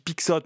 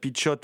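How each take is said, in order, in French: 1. Le nom se prononce à la française. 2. Le nom se prononce à la portugaise. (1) "moi je dis Pixote" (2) "si je prononce à la portugaise"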